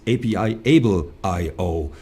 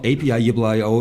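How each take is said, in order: First: "A P I Able I O" with Able as a separate clear word; corrected company name. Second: "A P I I O" with the name's middle run together; mispronounced company name. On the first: Host showing what the guest taught him, corrected pronunciation. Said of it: "you just taught me". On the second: Host owning up to his mistake, mispronounced company name. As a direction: say "A P I I O" wrongly, slurring the middle word. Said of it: "it's not A P I I O". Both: Shown as a demonstration.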